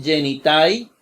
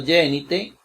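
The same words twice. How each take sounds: First: "genitai" ending in an open ai diphthong; spelled-out ai. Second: "genite" ending in a simple e; as pronounced, e. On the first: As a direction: say "genitai" as written, ending like eye. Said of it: "se escribe como diptongo ai". ("genitai" con diptongo ai al final) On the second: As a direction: say "genite", final ai reduced to e. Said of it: "nada más como se pronuncia". ("genite" con e simple al final) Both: Shown as a demonstration.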